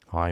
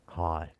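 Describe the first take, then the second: First: It is said in a moody, sullen voice. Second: It is said in a sexy, seductive voice.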